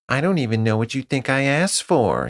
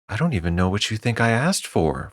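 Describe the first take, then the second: First: It is said in a mocking falsetto voice. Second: It is said in a normal voice.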